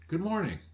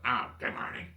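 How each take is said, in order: First: It is said cheerfully, with a smile. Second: It is said grudgingly, without enthusiasm.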